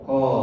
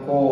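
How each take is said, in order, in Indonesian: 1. Vokal itu diucapkan dengan bibir terbuka, tidak membulat. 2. Vokal itu diucapkan dengan bibir membulat, dimonyongkan ke depan. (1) "ko dibuka" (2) "tidak dimonyongkan, bukan ko"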